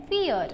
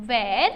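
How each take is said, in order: First: Where said with a falling tune, final. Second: Where said with a rising tune, like listing. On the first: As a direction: drop where down to close. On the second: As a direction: lift Where at the end. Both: Shown as a demonstration. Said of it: "मैंने जैसे उसको pronounce किया".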